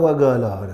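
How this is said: The consonant is said as a hard g. It copies a regional Arabic pronunciation. The speaker calls it wrong.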